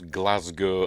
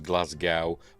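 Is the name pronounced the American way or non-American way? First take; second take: non-American; American. First: It is said with a non-American pronunciation. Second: It is said with an American pronunciation.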